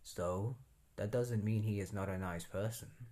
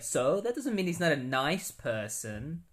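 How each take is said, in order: First: It is said plainly, with little expression. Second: It is said with lively, expressive personality. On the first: "He probably said it more like" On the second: "I'm adding some personality to Firestorm"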